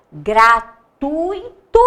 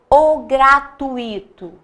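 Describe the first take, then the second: First: Gratuito drawn out slowly as gra-tu-i-to, rising; syllables split. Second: Gratuito said with the ui as one gliding sound, falling; run together. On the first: Teacher testing the wrong split, syllables pulled apart. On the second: Teacher giving the right pronunciation, ui glided. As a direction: gratuito said smoothly as gra-tui-to. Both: Shown as a demonstration. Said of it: "como que eu pronuncio essa palavra".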